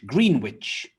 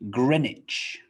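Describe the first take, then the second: First: The name is said with a W sound. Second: The name is said without a W sound. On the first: The speaker calls it wrong. "green and witch" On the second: The speaker calls it right. "We drop the W"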